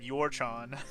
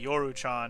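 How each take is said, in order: First: The name has two syllables, your-chan. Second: The name has three syllables, yo-ru-chan. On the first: The speaker calls it wrong. "I just said your-chan" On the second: The speaker calls it right. "I think I was supposed to say Yoru-chan"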